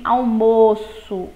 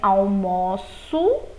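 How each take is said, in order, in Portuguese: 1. A vogal O tônica é fechada. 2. A vogal O tônica é aberta. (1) "o som do O aí já é fechado" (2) "som aberto"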